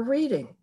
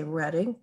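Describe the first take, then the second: First: Reading said REED-ing; Reading as REED-ing, pitched higher then falling; outsider's pronunciation. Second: Reading said RED-ing; Reading as RED-ing, rising as a question; local place-name pronunciation. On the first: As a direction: say Reading with a long ee, like reading a book. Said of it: "or Reading?". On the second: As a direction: say Reading with a short e, like the color red. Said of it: "Do they say Reading". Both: Shown as a demonstration.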